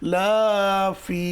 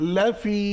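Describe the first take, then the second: First: The first vowel is drawn out long. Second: The first vowel is kept short. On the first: It means not in it. The speaker calls it wrong. "লা জবরের বাম পাশে খালি আলিফ নেই, তবু টান দিয়েছেন" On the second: It means surely in it. The speaker calls it right. "লাতে টান দেওয়া যাবে না।"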